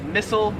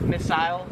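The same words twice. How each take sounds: First: "missile" as MISS-ul; American pronunciation. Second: "missile" as MISS-ile; Australian pronunciation. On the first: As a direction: swallow the ending of "missile". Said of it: "or as they would say it". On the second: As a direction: end "missile" like aisle. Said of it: "would say it in Australia". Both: Shown as a demonstration.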